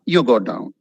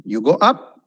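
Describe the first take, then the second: First: "down" dropped low at the end; demonstrated fall on "down"; falling tune on DOWN. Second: "up" swept upward at the end; demonstrated rise on "up"; rising tune on UP. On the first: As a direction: sink the pitch on "down". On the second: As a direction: lift the pitch on "up". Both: Shown as a demonstration. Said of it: "that's called intonation".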